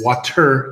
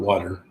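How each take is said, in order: First: The middle consonant is a clear T sound. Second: The middle consonant sounds like a D. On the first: The speaker calls it right. "it's water" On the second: The speaker calls it wrong. "not water, with a D"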